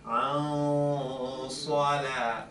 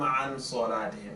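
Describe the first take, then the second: First: The n is hidden with nasalization. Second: The n sound is pronounced clearly. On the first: The speaker calls it right. "that's a no-no, but" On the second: The speaker calls it wrong. "So I don't say"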